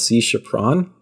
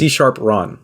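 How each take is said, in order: First: The name runs together as one word, chaperon. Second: The name splits into sharp and Ron. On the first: The speaker calls it wrong. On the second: The speaker calls it right.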